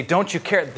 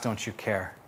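First: Said in the usual way. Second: Softer, lower, almost to yourself; quiet hurt question. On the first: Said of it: "the disciples turn to Jesus and say". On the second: Retold or imitated. Listener quietly asking God, soft and weary. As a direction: let it fall away, small and tired. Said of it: "maybe you ask".

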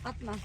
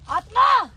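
First: Said in the usual way. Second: Loud, sharp yell; shouted protest. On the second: Real, not acted. Victim telling his friend not to throw, shouted protest. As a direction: yell at him to stop.

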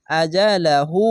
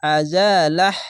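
First: আজা লা হু ending on a drawn-out hu; full reading, long hu. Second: আজা লাহ ending on a breathed h; stopping form. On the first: Teacher reads the word through, long u ending. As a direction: stretch the final হু of আজা লা হু. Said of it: "উল্টা পেশে এক আলিফ টেনে". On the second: Teacher shows how to stop, final breathed h. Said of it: "এভাবে থেমে যাবেন". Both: Shown as a demonstration.

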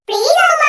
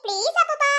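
First: Put-on children's insistent shouted plea; loud pleading. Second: Said in the usual way. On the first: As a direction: beg loudly, all together. Children plead all together.

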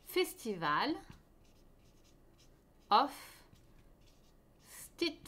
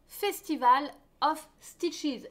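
First: English title split by long pauses; word-by-word dictation. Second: English title in a French accent. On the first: Shown as a demonstration. Host writing the shawl's name for viewers, spaced-out dictation. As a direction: say Festival, of, Stitches one at a time, as if writing it out. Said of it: "Je vais vous l'écrire". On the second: Real, not acted. Host announcing the next shawl's name, French-accented English. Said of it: "mon accent est terrible".

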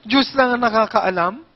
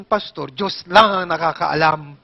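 First: Exasperated repeat. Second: Imitating the old lady. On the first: Retold or imitated. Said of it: "Dalawang oras akong nagsayang ng laway". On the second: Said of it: "ang sagot ba naman sa akin".

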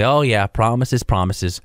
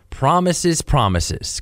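First: Mock the empty promise; sarcastic. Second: Sarcastic. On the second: Retold or imitated. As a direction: roll your eyes as you say it. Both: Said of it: "kind of sarcastically".

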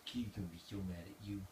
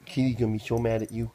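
First: Much softer, murmured teasing of the dog. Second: Louder playful scolding of the dog; louder teasing. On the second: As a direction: call it out loud to the dog, teasing. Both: Real, not acted.

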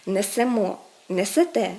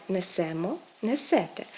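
First: Несемо, несете stressed on final -МО and -ТЕ; correct end stress. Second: Несемо, несете stressed on -СЕ-; wrong middle stress. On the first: Teacher models correct forms, несемо, несете stressed on endings. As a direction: punch the last syllable of несемо and несете. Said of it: "Правильно казати". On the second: Teacher shows the mistake, несемо, несете stressed on СЕ. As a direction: say несемо, несете hitting the SE syllable. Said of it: "а не". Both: Shown as a demonstration.

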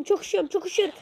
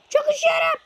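First: Playful complaint of being frozen, a bit higher; lightly played cold shivering; mock freezing. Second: Very high squeaky 'Çok üşüyorum', louder; hammed-up shivering squeak; squeaky freezing voice. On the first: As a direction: whine that you're freezing. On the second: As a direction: squeal 'Çok üşüyorum' like a frozen cartoon character. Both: Character frozen in game.

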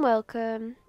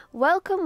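First: Said in the usual way. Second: High, loud greeting; bright welcome. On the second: Acted. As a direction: call it out cheerfully. Greeting customers in game.

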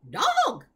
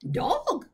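First: Loud, high-pitched parrot squawk; shrieking bird cry; parrot scream. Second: High, loud croaking squawk; squawked bird croak, less piercing than a scream; parrot croak. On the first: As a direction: screech DOG like an alarmed parrot. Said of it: "screamed Gertrude". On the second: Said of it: "she croaked". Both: Acted.

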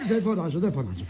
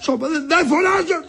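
First: Low, soft placating voice; hushed backing down. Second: High, agitated protest; shouted denial. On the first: Husband placating his ailing wife, suddenly quiet. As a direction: drop right down to prove you aren't shouting. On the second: Husband told not to shout at ailing wife, shouting. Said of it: "Μη φωνάζεις όλον". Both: Acted.

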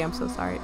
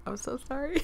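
First: Low creaking door voice; creaky voice. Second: Said in the usual way. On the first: Shown as a demonstration. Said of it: "I'm gonna do the creaky". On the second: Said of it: "that's what it sounds like".

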